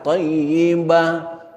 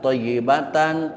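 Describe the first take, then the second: First: The word ends in a soft h sound. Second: The ending ta is voiced fully as tan. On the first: The reader stops on the word. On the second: The word is read on without stopping.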